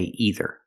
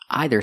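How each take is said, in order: First: The word is said the American way. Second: The word is said the British way. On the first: The speaker calls it right. "It's more common in America to say either" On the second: The speaker calls it wrong. "Either sounds more British"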